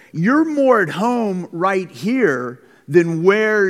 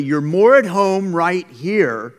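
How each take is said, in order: First: Said in the usual way. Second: "You're more at home right here" slow, with "at" hit louder; said emphatically. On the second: Real, not acted. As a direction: lean hard on "at", slow and firm. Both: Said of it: "I'm gonna say that emphatically".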